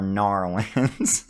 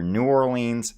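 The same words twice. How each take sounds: First: "Narlins" squashed to NAR-lins; local pronunciation. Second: "New Orleans" as new or-LEENS; standard pronunciation. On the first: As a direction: say "Narlins" as two syllables for New Orleans. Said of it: "either New Orleans or Narlins". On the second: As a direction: say "New Orleans" in full, slowly. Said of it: "It's pronounced either". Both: Retold or imitated.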